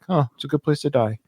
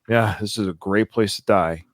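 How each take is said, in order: First: It is said in a comforted, sincere tone. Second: It is said with a sarcastic tone.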